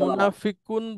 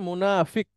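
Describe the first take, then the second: First: The word ends with a full -un ending. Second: The word ends on a bare k sound. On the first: The reading continues without stopping. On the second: The reader stops at this word.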